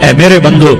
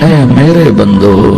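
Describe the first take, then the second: First: It is said in a plain, unaffectionate tone. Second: It is said in a warm, loving tone. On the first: The speaker calls it wrong. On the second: The speaker calls it right.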